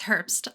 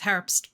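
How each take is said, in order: First: The name is said with an English pronunciation. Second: The name is said with a German pronunciation. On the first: "It's Herbst" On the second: "we can do the German saying"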